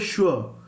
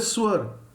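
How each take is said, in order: First: The word begins with an sh sound. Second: The word begins with a plain s sound. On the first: The speaker calls it right. "we say sure ... the pronunciation is S H" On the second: The speaker calls it wrong. "we do not say swar"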